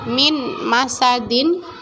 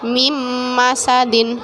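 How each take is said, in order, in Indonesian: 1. Kata pertama berakhir dengan bunyi n yang jelas. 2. Bunyi n menyatu menjadi bunyi sengau m.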